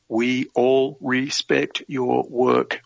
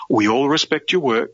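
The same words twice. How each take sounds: First: Very slow, one word at a time; deliberate quoting. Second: Said in the usual way. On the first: Retold or imitated. Quoting the officer to the interviewer, slow and deliberate. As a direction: space out "We all respect your work" word by word.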